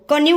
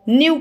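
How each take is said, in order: First: A k sound is said before the n. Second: The word starts directly with the n sound. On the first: The speaker calls it wrong. "को न्यू नहीं पढ़ेंगे" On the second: The speaker calls it right. "न्यू पढ़ेंगे"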